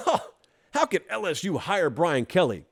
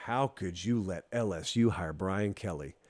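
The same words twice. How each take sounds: First: Scoffing laugh, then an incredulous question; hammed-up derisive disbelief; foolish mocking laughter. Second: Low, hushed, ominous question; quiet, deep-pitched reproach; grave disbelief. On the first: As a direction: imitate a foolish doubter laughing it off. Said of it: "The first group laughed foolishly and said". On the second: Acted. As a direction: drop soft and low, as a serious warning. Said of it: "And I was saying".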